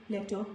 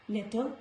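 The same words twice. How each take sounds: The two takes are said the same way.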